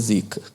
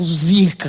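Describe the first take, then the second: First: It is said in a disapproving, negative tone. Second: It is said in an admiring, excited tone. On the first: The person is bad or jinxed. "depende da entonação, significa uma coisa" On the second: The thing is amazing. "significa que é um carro muito incrível"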